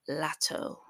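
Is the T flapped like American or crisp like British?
British. The T is crisp, British style.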